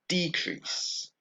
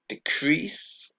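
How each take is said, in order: First: The stress is on the first syllable. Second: The stress is on the second syllable. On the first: It is used as a noun. "we have the same change in the word stress" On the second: It is used as a verb. "we have the same change in the word stress"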